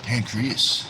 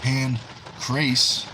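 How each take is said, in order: First: "pancreas" said slowly as pan-kree-us, the organ's name; drawn-out "pancreas" pan-kree-us, the wrong version; the wrong take of "pancreas", spoken slowly as pan-kree-us. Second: "Pancreas" said as pan-krayss, ending in -ayss like Pancrase; the correct take of "Pancreas", pan-krayss; Pancrase, not pancreas. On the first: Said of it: "Pancreas, not". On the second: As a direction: read "Pancreas" with the vowel of "ace" at the end, pan-krayss. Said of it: "not pancreas". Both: Retold or imitated.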